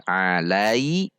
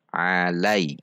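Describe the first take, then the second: First: "alai" with a long rising final i; wrong lengthened glide. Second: "alai" with a short falling ai; correct short glide. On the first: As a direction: drag the end of "alai" upward. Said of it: "bukan alai". ("alai" dengan akhir dipanjangkan) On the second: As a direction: let "alai" glide briefly and drop. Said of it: "namun alai". ("alai" diayun pendek) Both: Shown as a demonstration.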